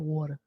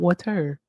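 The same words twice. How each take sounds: First: The T sound in the middle is dropped. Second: The T sound in the middle is pronounced. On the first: The speaker calls it right. "but water. There's no T" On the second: The speaker calls it wrong. "Not water"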